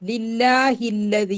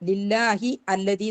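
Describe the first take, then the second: First: The two words run together without a glottal stop. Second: A glottal stop separates the two words. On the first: The speaker calls it right. "ലില്ലാഹില്ലതി എന്നാ പറയാ" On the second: The speaker calls it wrong. "ലില്ലാഹി അല്ലതി എന്ന് പറയൂല"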